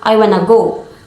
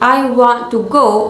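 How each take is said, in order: First: Want to is reduced to wanna. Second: Want to is said in full. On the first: "The to becomes reduced" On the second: "instead of saying I want to go"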